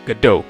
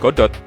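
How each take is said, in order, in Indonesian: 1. Nama Godot diucapkan dengan gaya Inggris. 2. Nama Godot diucapkan dengan gaya Indonesia. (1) "pengucapan Godot yang benar di bahasa Inggris" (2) "sesuai bahasa lidah kita. Kalau aku sih suka nyebutnya Godot"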